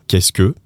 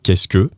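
First: The syllables are squeezed together and shortened. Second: The same.

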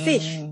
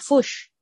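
First: The vowel sounds like a clear 'i'. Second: The vowel sounds like a 'u'. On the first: It is not the local Kiwi way of saying it. "Bukan fish" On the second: It is the local Kiwi way of saying it. "Kayak pakai u, kayak fish"

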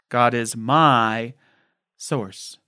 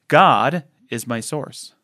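First: The word "my" carries the main stress. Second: The word "God" carries the main stress.

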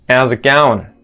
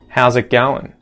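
First: The H at the start is dropped. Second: The H at the start is pronounced.

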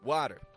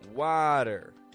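First: The first vowel is short and clipped. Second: The first vowel is long and stretched out. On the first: The speaker calls it wrong. "I don't just give it a short" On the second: The speaker calls it right. "I'm stretching out the vowel sound crystal clearly"

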